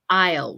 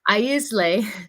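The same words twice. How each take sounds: First: The S sound is silent in the word. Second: The S sound is pronounced in the word. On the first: The speaker calls it right. "the S of this word is actually silent" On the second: The speaker calls it wrong. "We don't want to say aisle"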